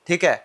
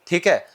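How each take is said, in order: Both takes have the same delivery.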